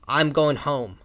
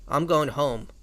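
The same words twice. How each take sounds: First: The voice sounds angry. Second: The voice sounds tired.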